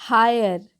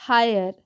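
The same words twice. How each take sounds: Both takes have the same delivery.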